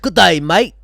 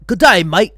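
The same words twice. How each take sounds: First: Mock Aussie accent, light and playful; a hammed-up Aussie hello. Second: Mock Aussie accent, pushed louder; hammed-up Aussie hello, louder. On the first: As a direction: greet like a cartoon Australian. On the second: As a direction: bellow the Aussie greeting. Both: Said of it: "your accent sounds more British and Aussie".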